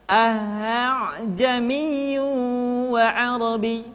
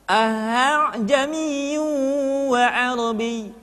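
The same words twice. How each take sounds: Both takes have the same delivery.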